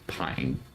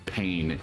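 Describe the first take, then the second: First: The vowel sounds like the one in 'eye'. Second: The vowel sounds like the one in 'day'. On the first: The speaker calls it right. "that it was pine" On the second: The speaker calls it wrong. "her name didn't pronounce it pain"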